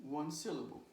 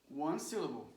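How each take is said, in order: No difference in how they are said.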